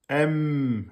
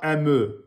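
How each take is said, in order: First: The m is held long with closed lips. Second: The m is cut off with a bounce. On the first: The speaker calls it right. "Vous devez rester avec les lèvres fermées et vous laissez un temps et demi" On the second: The speaker calls it wrong. "Ne dites pas M"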